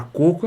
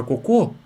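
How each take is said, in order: First: "coco" stressed on the first syllable, CO-co; "coco" as CÔ-cu, ending unstressed. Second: "cocô" stressed on the final syllable, co-CÔ; "cocô" as co-CÔ, weak first syllable; stress on last syllable. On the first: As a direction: say "coco" with the first o strong, the last weak. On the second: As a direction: say "cocô" landing hard on the last ô. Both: Shown as a demonstration. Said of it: "mudou um pouquinho, já é outra coisa".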